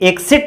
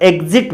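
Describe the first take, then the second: First: The x is said as ks. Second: The x is said as gz. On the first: "ई के S I T भी होता है" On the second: "E जी Z I T भी"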